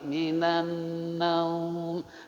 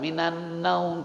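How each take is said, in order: First: The vowel in naum is lengthened. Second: The vowel in naum is not lengthened. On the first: The speaker calls it right. "karena masuk mad lin kalau diwakafkan" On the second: The speaker calls it wrong. "Bukan minan naum"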